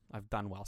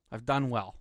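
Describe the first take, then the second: First: Soft, lower repeat to himself; quiet. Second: Said in the usual way. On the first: Real, not acted. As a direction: drop to a near murmur.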